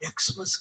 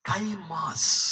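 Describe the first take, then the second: First: The word begins with an eks sound. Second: The word begins with a kai sound. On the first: The speaker calls it wrong. "నీ దుంపదగా ఎక్స్మస్ కాదు" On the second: The speaker calls it right. "Greek ఏబిసిడీల్లో అది కై"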